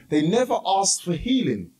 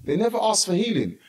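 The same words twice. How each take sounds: First: Never leaned on hard with a falling line; preacher pointing out what the lepers left out, stress on never. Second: Asked leaned on, never left lighter; preacher repeating for the congregation, stress on asked. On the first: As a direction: press the word never, the rest plain. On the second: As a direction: hit asked and let healing fall away. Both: Shown as a demonstration. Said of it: "listen carefully".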